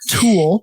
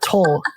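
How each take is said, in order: First: The vowel sounds like the one in 'tool'. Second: The vowel sounds like the one in 'toll'. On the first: The speaker calls it right. "It's not Toll, Tool" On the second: The speaker calls it wrong. "I said it wrong"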